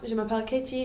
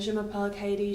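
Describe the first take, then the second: First: It is said with a lively, varied pitch. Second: It is said flatly in one monotonous tone. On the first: The speaker calls it right. "you're using the actual, like, I suppose, tone of your voice" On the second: The speaker calls it wrong. "you're not just going in and being like"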